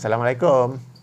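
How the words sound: It sounds reluctant and half-hearted. The greeter only greets out of obligation. The speaker calls it wrong. "macam tak nak bagi salam je"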